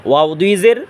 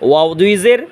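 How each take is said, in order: The two takes are said the same way.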